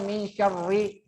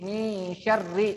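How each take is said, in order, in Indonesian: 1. R-nya itu r lembut, mirip gaya Inggris. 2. R-nya itu r ketukan gaya Arab. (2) "tapi ro, ro. Syarri"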